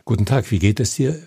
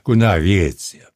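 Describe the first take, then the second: First: Every word is clearly and distinctly articulated. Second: The words are mumbled and run together.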